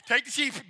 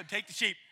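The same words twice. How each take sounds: First: Louder, panicked plea. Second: Said in the usual way. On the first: Acted. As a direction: Take the sheep thrown out louder, giving up in a panic. Scared shepherd gives up.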